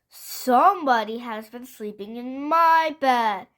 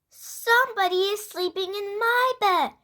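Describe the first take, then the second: First: It is said in a great big voice. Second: It is said in a wee little voice.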